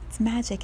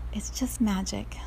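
First: Said in the usual way. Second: Whispered. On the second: Real, not acted. Whispered reflection after story.

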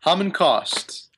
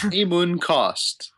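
First: Hamun Kost as HAH-mun Kost, slow; first vowel as "ah". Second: Hamun Kost as HAY-moon Kost, slow and high; first vowel as "ay". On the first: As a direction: settle on Hamun with an open "ah". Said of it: "Like Hamuntosh". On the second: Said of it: "I can't tell if it's Hamun or Ham". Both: Shown as a demonstration.

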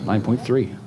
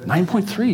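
First: Said in the usual way. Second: "Nine point three" pitched up high; emphatic repeat. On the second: Real, not acted. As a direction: repeat "Nine point three" much higher, impressed by the score. Repeats the score for effect.

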